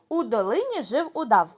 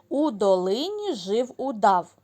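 First: The phrase is spoken at a faster pace. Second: The phrase is spoken at a slower pace. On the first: "а тепер швидше" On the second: "Спочатку послухайте"

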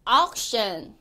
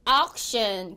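The two takes are said the same way.

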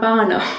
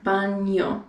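First: The middle consonant is a plain N sound. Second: The middle consonant sounds like NY, as in canyon. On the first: The speaker calls it wrong. "It's not bano" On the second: The speaker calls it right. "that is pronounced with sort of like an NY"

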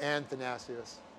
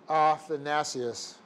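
First: The name is said with an extra n sound. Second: The name is said without an extra n sound. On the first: The speaker calls it wrong. "not Athanasius" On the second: The speaker calls it right. "The guy's name is Athanasius"

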